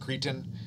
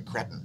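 First: It is said with an American pronunciation. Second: It is said with a British pronunciation. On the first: "For you Americans" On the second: "For you non-Americans"

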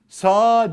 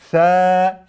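First: The vowel is a plain open a. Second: The vowel is long, between e and a. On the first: The speaker calls it wrong. "Sa diyebilir miyim? Hayır" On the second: The speaker calls it right. "E A arası ses çıkartıyoruz. S şeklinde okuyoruz"

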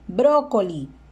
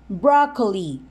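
First: It is pronounced with Spanish sounds. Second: It is pronounced with English sounds. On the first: "Brócoli, en español" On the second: "Inglés"

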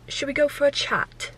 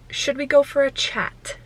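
First: It is said in an English accent. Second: It is said in the speaker's normal accent.

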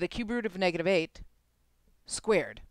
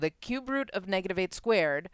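First: A break falls before 'squared', grouping 'cube root of negative 8'. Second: A break falls after 'root of', grouping 'negative 8 squared'. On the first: The cube root is taken first, then the result is squared. "I can take the cube root first and then square the answer" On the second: The number is squared first, then the cube root is taken. "I don't know if you can hear the difference in my tone"

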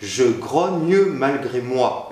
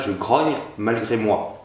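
First: The final e of grogne is pronounced. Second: The final e of grogne is silent. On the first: The speaker calls it right. "il est important de bien prononcer le « e » de « grogne »" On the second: The speaker calls it wrong. "et pas"

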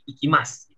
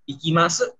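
First: The final u is silent, ending on s. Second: The final u is fully pronounced. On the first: The speaker calls it right. "tapi ikimasu" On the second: The speaker calls it wrong. "Jadi bukan ikimasu"

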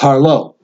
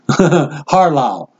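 First: The name is said with its standard pronunciation. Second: The name is said with a variant pronunciation. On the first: The speaker calls it right. "And it's Harlow" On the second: The speaker calls it wrong. "I seem to have a problem mispronouncing Brother Harlow's last name. I like to say Harlow"

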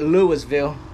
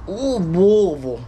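First: Each syllable is pronounced clearly and fully. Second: The word is mumbled, as if with a full mouth. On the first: The speaker calls it wrong. "It ain't Louisville" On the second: The speaker calls it right. "you got drink in your mouth. Louisville. That's the way you say it"

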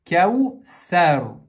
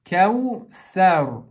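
The two takes are said the same way.

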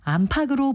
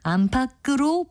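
First: The middle consonant is a plain soft g sound. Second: The middle consonant is a tense kk sound. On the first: The speaker calls it wrong. "예사소리로 발음하는 경우가 많이" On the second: The speaker calls it right. "정확한 발음입니다"

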